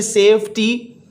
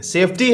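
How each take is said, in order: First: सेफ्टी slowly split into two syllables. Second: Said in the usual way. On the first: Shown as a demonstration. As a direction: break सेफ्टी into "safe" and "tee". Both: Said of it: "दो syllable हैं जी".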